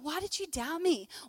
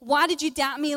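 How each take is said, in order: First: It is said in a gentle, comforting tone. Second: It is said in an angry, annoyed tone.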